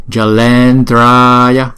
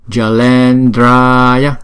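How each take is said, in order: No difference in how they are said.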